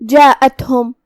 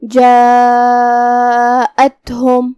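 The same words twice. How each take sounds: First: Said in the usual way. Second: جاءتہم with the alif held long, four counts; madd demo. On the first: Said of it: "چار مد کے برابر لمبی". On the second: Shown as a demonstration. Tajweed teacher chanting madd muttasil for students, very drawn out. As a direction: draw out جاءتہم in a slow chanting tone. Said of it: "آواز چار مد کے برابر لمبی کریں گے".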